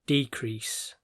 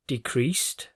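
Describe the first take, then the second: First: Decrease as a noun, DE-crease; stress on first syllable. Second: Decreased, with the weight on -creased; stress on second syllable. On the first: Teacher shows students the noun, decrease stressed on the first syllable. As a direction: punch the opening de- of decrease. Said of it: "is on the first syllable". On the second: Teacher shows students the verb, Decreased stressed on the second syllable. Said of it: "is on the second syllable". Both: Shown as a demonstration.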